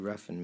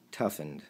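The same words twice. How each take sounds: First: Roughened read out with an R, as the wrong word; the slip roughened, said plainly with a rolled-in R; misspoken roughened. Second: Toughened with a firm T, a bit lower; corrected toughened. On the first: Retold or imitated. Ex's text misread as roughened, with an R. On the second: Shown as a demonstration. Correcting the ex's word, firm Toughened. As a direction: correct her: Toughened, T stressed.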